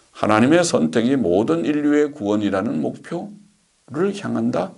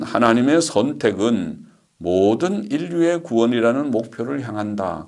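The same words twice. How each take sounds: First: Requote it as a doubtful question, pausing before the last word; skeptical questioning. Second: Said in the usual way. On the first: Real, not acted. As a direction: query the quoted claim with a rising lilt. (의아한 듯 되묻는 말투)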